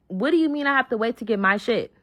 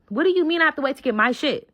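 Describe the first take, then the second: First: Mild indignant challenge; first, measured take of an angry demand; retold going off. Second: Higher, quicker indignant demand; retold going off. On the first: Told to wait for her belongings, mildly indignant. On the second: Told to wait for her belongings, heated indignation. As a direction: repeat it faster and more heated. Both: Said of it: "I'm in the car going off".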